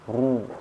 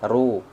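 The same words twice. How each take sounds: First: The r sound is heavy and full. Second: The r sound is light and thin. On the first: The speaker calls it right. "Tapi kalau tebal" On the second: The speaker calls it wrong. "Kalau saya bacanya lemah bunyinya"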